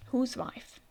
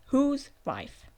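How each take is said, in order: First: Said in the usual way. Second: "Whose" stretched and louder; emphatic repeat. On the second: Real, not acted. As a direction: lean hard on "Whose". Puzzled question, repeated for emphasis.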